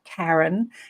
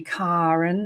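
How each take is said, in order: First: The first vowel is an 'air' sound. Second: The first vowel is an open 'ah' sound. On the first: The speaker calls it wrong. "and not Karen" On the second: The speaker calls it right. "my mother insisted that people call me Karen"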